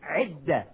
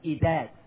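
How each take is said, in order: First: The word starts with a throaty ayn sound. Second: The word starts with a plain vowel sound. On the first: The speaker calls it right. "The word is a idda with an ayn" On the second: The speaker calls it wrong. "commonly mispronounced word by American Muslims"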